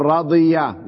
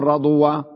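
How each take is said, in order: First: رضية with a y sound, ra-DI-ya; correct form. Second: رضوة with a w sound, ra-DU-wa; wrong form. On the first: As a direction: model رضية with i and y before the last vowel. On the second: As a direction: show the mistaken رضوة with u and w before the last vowel. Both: Shown as a demonstration. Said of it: "لا تقول رضوة".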